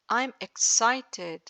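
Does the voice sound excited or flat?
flat. The voice is flat, showing no excitement. The speaker calls it wrong. "This is no excitement"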